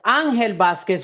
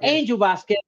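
First: The name is pronounced with Spanish sounds. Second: The name is pronounced with English sounds. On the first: This is the proper form of the name. "which is proper, right? ... In Spanish, that's proper" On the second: This is the easier form for non-Spanish speakers. "It's easier for a lot of non-Spanish speaking people to say Angel"

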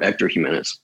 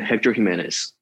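First: The name is said with Spanish sounds. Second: The name is said with English sounds. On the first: The speaker calls it right. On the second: The speaker calls it wrong.

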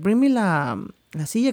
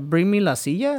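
First: It is said with a pause before the Spanish. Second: It is said fast with no pause. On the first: It sounds like natural speech. The speaker calls it right. "cause like you take a pause or something" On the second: It sounds scripted. The speaker calls it wrong. "you say it like so fast"

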